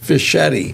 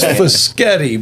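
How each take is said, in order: First: The name is said in the local way. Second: The name is said in its original way. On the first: This is how people here say the name. "they pronounce it here as Fischetti" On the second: This is how the family says the name. "my name's Fischetti"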